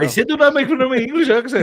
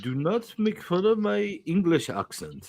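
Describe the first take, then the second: First: Higher, louder, fast put-on accent; louder English accent. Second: A light put-on English accent; a lightly voiced British-sounding accent, a touch offended; mock English accent. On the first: Friend repeating his complaint in a louder put-on accent. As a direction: repeat it indignant and much bigger. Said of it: "straight Indian, bro". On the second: Friend complaining about teasing in a put-on accent. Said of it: "That is not English".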